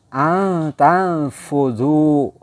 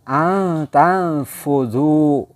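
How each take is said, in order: First: The n is hidden in a nasal hum. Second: The same.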